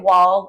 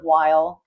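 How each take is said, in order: First: The vowel is flattened, sounding close to 'wall'. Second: The vowel glides fully, as in standard 'while'. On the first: This is how the speaker's accent slips out. "I say "wall" instead of" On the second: This is the form without the regional accent. "instead of "while.""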